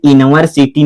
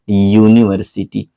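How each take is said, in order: First: यूनिवर्सिटी said as "inversiti", with no "yu" sound at the start; the mistaken यूनिवर्सिटी, clipped to "inversiti"; wrong reading. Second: यूनिवर्सिटी said clearly as "yu-ni-ver-si-ti"; the correct यूनिवर्सिटी, opening with "yu"; correct reading. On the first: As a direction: deliberately misread यूनिवर्सिटी starting on "in". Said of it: "ये यूनिवर्सिटी नहीं है मेरे बच्चे". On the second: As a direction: start यूनिवर्सिटी on a clear "yu" sound. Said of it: "इसको सही सही पढ़ा जाता है". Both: Shown as a demonstration.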